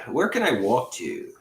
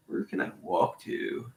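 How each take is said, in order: First: Said in the usual way. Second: Slow unvoiced whisper; Where can I walk to whispered slowly. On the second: Real, not acted. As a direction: murmur it to yourself with no voice. Repeats line as whisper.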